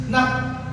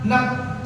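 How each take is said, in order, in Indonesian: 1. Konsonan akhirnya adalah p yang tertutup dan terhenti. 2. Konsonan akhirnya adalah p yang tertutup dan terhenti.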